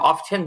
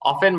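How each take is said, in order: First: The word is said with a t sound. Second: The word is said without a t sound. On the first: "অফেন বা অফটেন দুটোই বলা যায়" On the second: "অফেন বা অফটেন দুটোই বলা যায়"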